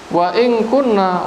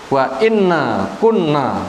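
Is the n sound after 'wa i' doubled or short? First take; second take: short; doubled. First: The particle is light, a short single n. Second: The particle is heavy, a doubled n plus vowel. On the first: "Wa in dibaca mukhaffafatun" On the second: "bila dibaca berat"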